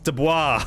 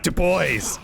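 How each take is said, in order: First: The last syllable has a 'wa' sound. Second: The last syllable lacks a 'wa' sound. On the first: The speaker calls it right. "O I S makes the wa sound" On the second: The speaker calls it wrong. "It's not Dubois!"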